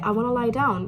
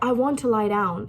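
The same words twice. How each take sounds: First: Want to is reduced to wanna. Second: Want to is said as two full words. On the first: "which is usually what native speakers say" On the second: "we say stuff like"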